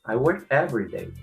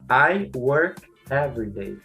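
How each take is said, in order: First: "I work" is reduced and unstressed. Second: Every word carries equal stress. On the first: The speaker calls it right. "as palavras I work não, elas não recebem ênfase na pronúncia, portanto, elas devem ser abreviadas" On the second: The speaker calls it wrong. "vai colocar a ênfase em cada palavra"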